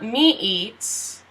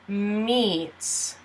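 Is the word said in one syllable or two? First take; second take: two; one. First: The word is split into two syllables. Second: The word is said as one syllable. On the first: The speaker calls it wrong. "So not me eats" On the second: The speaker calls it right. "it's meets"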